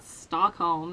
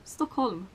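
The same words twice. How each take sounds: First: Stockholm said the non-Swedish way; foreign mispronunciation. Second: Stockholm said the native Swedish way; correct pronunciation. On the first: Swede showing the weird-sounding version, mispronounced Stockholm. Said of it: "not Stockholm. That sounds so fucking weird". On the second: Swede showing how you pronounce the capital, native Stockholm. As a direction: say Stockholm as a Swede would, softly. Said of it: "That's how you pronounce it". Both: Shown as a demonstration.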